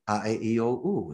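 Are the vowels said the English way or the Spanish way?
Spanish. The vowels are said the Spanish way. "the Latinos, they have their vowels differently"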